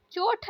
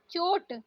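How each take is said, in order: First: चोट ending in aspirated th; wrong pronunciation. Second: चोट ending in plain t; no breath puff closing चोट; correct pronunciation. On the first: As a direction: say चोट as "choth". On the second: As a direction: say चोट as "chot". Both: Shown as a demonstration. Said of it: "चोट नहीं".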